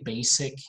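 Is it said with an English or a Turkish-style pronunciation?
Turkish-style. It is said with a Turkish-style pronunciation. The speaker calls it wrong. "if you say basic, maybe they're gonna make fun of you because you're speaking Turkish"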